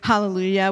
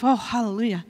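First: It is said in a celebrating tone. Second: It is said in a relieved tone.

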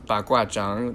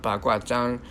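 First: The last syllable has a dipping third tone. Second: The last syllable lacks a dipping third tone. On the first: The speaker calls it right. "Zhang has a third tone on it, so it's baguazhang" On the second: The speaker calls it wrong. "not baguazhang"

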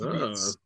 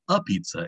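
First: It has a b sound and no final vowel. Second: It has a p sound and a final vowel. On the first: "with a B sound instead of a P and no A sound at the end" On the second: "it's spelled a pizza"

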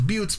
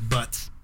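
First: The name is said the original European way. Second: The name is said the Americanized way. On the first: This is the family name as used in Europe. "The original pronunciation back when our family was from Europe" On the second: This is the family name as changed in America. "when we came over here, they changed it to Butts"

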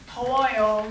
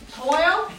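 First: The voice falls at the end. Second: The voice rises at the end.

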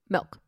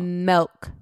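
First: The word is said quickly. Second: The word is said slowly and drawn out. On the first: "You said it so fast" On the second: "Say it slow"

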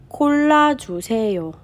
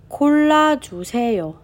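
No difference in how they are said.

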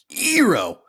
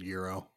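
First: The word is said with heavy, forced emphasis. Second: The word is said plainly, without extra force.

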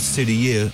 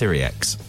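First: The name ends without a final x sound. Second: The name ends with a final x sound. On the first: The speaker calls it wrong. "because it's French, obviously, it looks like it should be Sudier, and it's not" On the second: The speaker calls it right. "It's Syriax"

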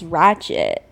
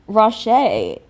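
First: The word is said with a plain accent. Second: The word is said with a French accent.

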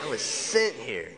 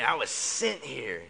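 First: It is said with sassy attitude. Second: It is said with sassy attitude.

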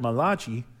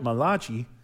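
First: The name is given an Italian-sounding pronunciation. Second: The name is given an Italian-sounding pronunciation.

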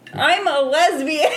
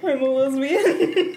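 First: It is said loudly. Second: It is said quietly.

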